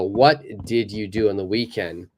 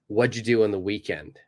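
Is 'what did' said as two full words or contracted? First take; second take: full; contracted. First: Each word is said separately and fully. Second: The words are joined into one short syllable.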